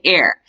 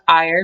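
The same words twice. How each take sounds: First: The name sounds like the word air. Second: The name sounds like the word ire. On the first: "I do my best to pronounce it Jane Eyre" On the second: "I always want to call it Eyre because Eyre means angry"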